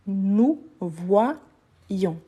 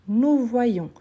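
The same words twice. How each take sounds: First: "nous voyons" drawn out slowly in separate pieces; syllable by syllable. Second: Said in the usual way. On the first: Shown as a demonstration. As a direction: break "voyons" into "voi" and "ions", slowly. (« nous voyons » lentement, syllabe par syllabe : voi-ions) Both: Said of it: "les son des double I".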